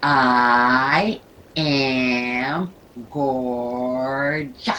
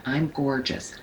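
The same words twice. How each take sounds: First: "I am gorgeous" very slow and louder, every letter stretched; accentuate each letter. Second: Said in the usual way. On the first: Shown as a demonstration. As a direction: pull each sound of "gorgeous" out as long as you can. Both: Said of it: "Now let's do that again".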